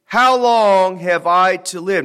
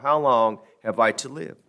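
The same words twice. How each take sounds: First: Put-on slow, louder How long have I to live, said as an old man's lament; solemn scripture reading. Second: Said in the usual way. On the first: Shown as a demonstration. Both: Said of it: "analyze that phrase".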